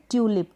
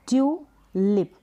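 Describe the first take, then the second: First: Said in the usual way. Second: ट्यूलिप slowly, as ट्यू, then लिप; syllable by syllable. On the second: Shown as a demonstration. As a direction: hold "tyoo" in ट्यूलिप, pause, then "lip". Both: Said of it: "पहला break किया".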